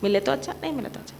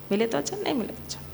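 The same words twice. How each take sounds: First: Said in the usual way. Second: Fast, rattled-off chant; तेज़ी से मंत्र की तरह; rattled-off mantra. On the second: Shown as a demonstration. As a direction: run it off quickly like a mantra. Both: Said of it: "what is that thing?".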